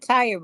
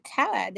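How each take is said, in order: First: Said in the usual way. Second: "tired" said as "tahd", r dropped; folksy "tahd" for "tired"; colloquial "tired". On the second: Shown as a demonstration. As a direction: stretch "tired" into one broad syllable, "tahd". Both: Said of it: "That's a different thing".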